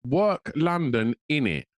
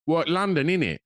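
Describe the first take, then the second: First: "Work London, innit?" drawn out slowly in mock London slang; slow, puzzled imitation of a London lad; repeating the phrase slowly to puzzle it out; mimicking London slang, slowed. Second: Quick imitation of a young Londoner's "What, London, innit?"; mock street accent, lightly done; a hint of a London lad; mimicking London slang. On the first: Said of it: "And I was like". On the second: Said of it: "and he went".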